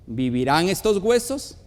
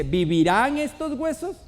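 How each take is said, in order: First: A grave question from scripture; measured scripture question. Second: Higher, mounting challenge with a rising end; lightly dramatised voice from heaven; thunderous divine voice. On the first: A narrator's reading. God asking the prophet about the bones, solemn question. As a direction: read solemnly, rising at the end. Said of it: "Y me dijo". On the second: Acted. God challenging Ezekiel among dry bones, dramatic rising question. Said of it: "Y la voz de trueno".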